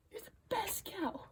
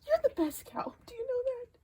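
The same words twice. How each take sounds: First: Soft breathy whisper of praise. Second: Higher, teary praise to the cow; tender praise. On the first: To her cow, tender whisper. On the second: To her cow, high tender praise. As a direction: tell her sweetly she's the best. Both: Real, not acted.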